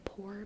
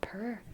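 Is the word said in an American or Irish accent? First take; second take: American; Irish. First: The word is said with a plain 'poor' vowel. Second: The word is said with an Irish 'purr' vowel. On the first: "instead of poor" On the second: "how they say purr"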